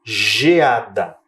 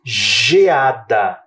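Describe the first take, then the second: First: "Geada" said again with a soft J, lower; teacher repeating "Geada" with a J sound; soft G demo. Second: "Geada" with the G said as J, stretched; teacher showing the J sound of "Geada"; soft G demo. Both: Shown as a demonstration. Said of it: "Não parece um som de J?".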